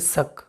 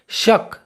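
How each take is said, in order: First: The word begins with an 's' sound. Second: The word begins with an 'sh' sound.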